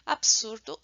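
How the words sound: The consonants run together, European style. "essas consoantes se pronunciam de forma seguida"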